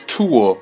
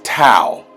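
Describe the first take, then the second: First: It is said as two syllables, too-ah. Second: It is said as one syllable, rhyming with cow. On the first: The speaker calls it wrong. "you keep mispronouncing as Tua" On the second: The speaker calls it right. "is Tau. T A U in the Greek"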